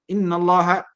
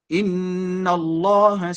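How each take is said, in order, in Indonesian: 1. Bunyi sengau n dipotong pendek. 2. Bunyi sengau n ditahan panjang. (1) "tidak ada gun gunah di situ" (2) "itu kan ada ada kadar guna di situ, ditahan"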